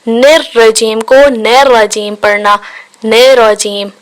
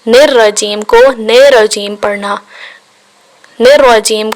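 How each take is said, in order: Both takes have the same delivery.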